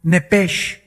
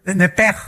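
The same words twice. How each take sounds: First: The spelled form "nepesh" before the Hebrew correction; read as spelled. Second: "Nepej" ending in a strong throaty j; preacher demonstrating the Hebrew j; Hebrew guttural j. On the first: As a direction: say "nepesh" exactly as it is written, sh at the end. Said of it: "así como suena". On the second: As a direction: push the j of "Nepej" hard from the throat. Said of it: "ponen mucho énfasis en el j". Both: Shown as a demonstration.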